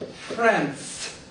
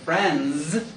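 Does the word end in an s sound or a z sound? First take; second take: s sound; z sound. First: The word ends in a voiceless hissing s sound. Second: The word ends in a voiced buzzing z sound. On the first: The speaker calls it wrong. "many people will say friends. It will come out friends because they don't make the voiced sound" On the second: The speaker calls it right. "which gets the Z sound"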